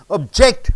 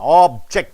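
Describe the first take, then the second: First: The stress is on the second syllable. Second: The stress is on the first syllable. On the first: It is a verb meaning to oppose. "When you stress on ject, it becomes objecting" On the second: It is a noun meaning a thing. "When you stress on ob, it becomes noun"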